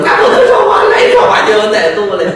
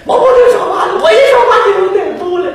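First: Shouting while fleeing. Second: High, fast shouted warning. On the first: Vendor shouting the lesson while pushing his cart away. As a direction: yell it as you run off. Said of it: "一边跑一边嚷嚷". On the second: Vendor yelling at the monk not to talk. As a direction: blurt the warning in panic. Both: Acted.

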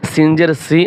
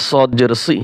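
First: "সি" with a thin hissing s; light seen sound. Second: "সি" with a thick, emphatic Arabic s; heavy saad sound. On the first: Teacher contrasts seen and saad, "সি" with light s. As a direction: say "সি" lightly with a flat tongue. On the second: Teacher contrasts seen and saad, "সি" with emphatic s. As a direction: raise the back of the tongue for a heavy "সি". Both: Shown as a demonstration. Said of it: "একটা হরফের উচ্চারণ অন্য হরফের সাথে মিলে যায়".

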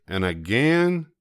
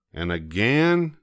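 No difference in how they are said.

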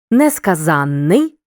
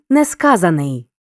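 First: Несказанний said slowly with a long нн and stress on за; stress on suffix. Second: Несказаний said with a single short н and stress on the root. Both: Shown as a demonstration. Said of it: "Порівняй".

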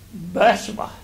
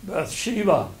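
First: Bathsheba with the first syllable stressed; stress on BATH. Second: Bathsheba with stress on SHE; long, stressed "she" in the middle of Bathsheba; common pronunciation. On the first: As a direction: say Bathsheba as BATH-shuh-buh. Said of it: "The emphasis is on Bath, not she". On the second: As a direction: say Bathsheba as bath-SHEE-buh. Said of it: "I've heard this name pronounced". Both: Shown as a demonstration.

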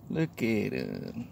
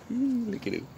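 First: Slow, soft "Look at him" stretched out; soft admiring. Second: Cooing. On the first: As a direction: linger fondly over "Look". Admiring the bird quietly. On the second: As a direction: coo it up high like at a puppy. Cooing at the cute bird. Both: Real, not acted.

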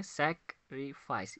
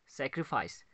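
First: "सैक्रिफाइस" slowly in three beats, सैक-रि-फाइस; split into syllables. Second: Said in the usual way. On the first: Shown as a demonstration. Teacher counting syllables for students, "सैक्रिफाइस" split in three. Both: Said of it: "इसमें देखते हैं कितनी syllables".

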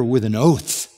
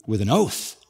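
First: Said in the usual way. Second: "With an oath." repeated low and hushed, stress on oath; "With an oath." softer and lower, pressing the word; hushed emphasis. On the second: Shown as a demonstration. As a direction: drop the voice and lean on "oath".

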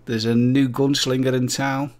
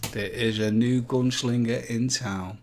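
First: Loud showman announcement; big booming gunslinger intro; announcer voice. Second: Said in the usual way. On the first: Pretend. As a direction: belt it like a Western movie trailer.

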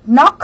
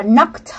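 First: "knock" ending on K, no T after it; bare "knock", no past-tense ending; base-form pronunciation. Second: "knocked" with a T sound after the K; past-tense "knocked", final T released; ED ending pronunciation. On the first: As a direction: say "knock" with silent first K and plain K ending. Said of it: "bình thường mình sẽ đọc là". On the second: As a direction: say "knocked" as one syllable ending in KT. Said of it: "thêm E D các em đọc là". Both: Shown as a demonstration.

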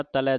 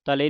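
First: "ਤਲੈ" ending in an open ai. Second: "ਤਲੇ" ending in a close e; mistaken e ending. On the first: Teacher models dulavan, open ending on "ਤਲੈ". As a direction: widen "ਤਲੈ" to ta-lai. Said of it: "ਦਲਾਵਾਂ ਦੇ ਨਾਲ". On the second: Teacher warns against the slip, close e in "ਤਲੇ". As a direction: finish "ਤਲੇ" on e, not ai. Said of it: "ਨਹੀਂ ਪੜਨਾ". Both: Shown as a demonstration.

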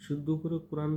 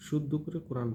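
No difference in how they are said.

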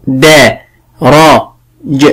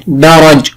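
First: "دا، را، ج" in separate, unhurried sounds with pauses; calm sounding-out. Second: Said in the usual way. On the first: Shown as a demonstration. Teacher models spelling درج for a pupil, slowly sounded out. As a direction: break the word calmly into "دا", "را", "ج". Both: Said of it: "ولكن بهدوء".

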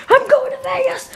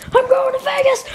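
First: High laughing yell; laughing shriek. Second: High shrieking cheer; ecstatic high yell. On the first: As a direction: cackle it out with joy. Laughing celebration. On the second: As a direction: yell it out overjoyed. Repeated joyful yell. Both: Acted.

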